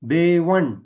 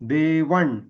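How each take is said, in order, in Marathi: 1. शब्दाचा शेवट मूर्धन्य न ध्वनीने होतो. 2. शब्दाचा शेवट मूर्धन्य न ध्वनीने होतो.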